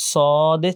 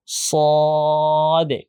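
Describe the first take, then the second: First: Said in the usual way. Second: "স" held long with a full rounded o, then short "দে"; thick, heavy pronunciation. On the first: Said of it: "স দে ছিল, এখন মোটা করতে". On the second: Shown as a demonstration. Teacher shows students the thickened letter, heavy pronunciation. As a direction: make "স" thick and heavy before "দে". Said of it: "এখন মোটা করতে পারলে দেখেন".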